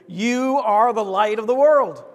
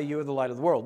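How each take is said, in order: First: Louder and slow, every word meant; with enthusiasm and meaning. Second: Mumbled dully without meaning; flat, no enthusiasm. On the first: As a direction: declare it slowly with conviction. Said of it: "say it with enthusiasm and meaning". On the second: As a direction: say it flatly, as if it means nothing. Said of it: "Not say". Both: Shown as a demonstration.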